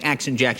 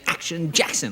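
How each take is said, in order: First: The name is said in a plain, ordinary voice. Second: The name is said in a big, booming announcer voice. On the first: The speaker calls it wrong. "I can't even say Action Jackson" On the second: The speaker calls it right. "like it's in the air"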